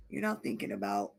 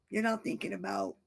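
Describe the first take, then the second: No difference in how they are said.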